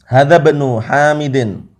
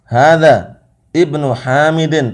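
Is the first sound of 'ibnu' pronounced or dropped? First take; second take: dropped; pronounced. First: The words are joined, with the i sound dropped. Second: The words are separated, with the i sound pronounced. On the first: "Kalau sambung dia sakotot. Hamzahnya ini hilang" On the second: "Bukan sambung wakaf"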